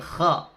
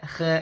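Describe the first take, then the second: First: The letter is sounded thick and heavy. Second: The letter is sounded thin and light. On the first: The speaker calls it right. "tapi kha, suaranya naik" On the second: The speaker calls it wrong. "Kha nggak boleh khe"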